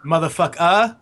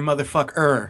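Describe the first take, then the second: First: The word ends with an open ah sound. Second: The word ends with a hard r sound. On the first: "A at the end" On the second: "hard R"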